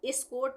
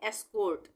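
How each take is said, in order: First: The first vowel is a long 'ee' sound. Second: The first vowel is a short 'e' sound. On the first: The speaker calls it wrong. "एस्कोर्ट नहीं पढ़ेंगे" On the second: The speaker calls it right. "तब ई का उच्चारण ए करेंगे"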